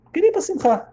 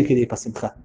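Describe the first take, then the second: First: Much higher, emphatic repeat; indignant repeat. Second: Said in the usual way. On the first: Retold or imitated. Wife recounting that her husband wanted the celebration, indignant. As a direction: repeat it in high-pitched disbelief.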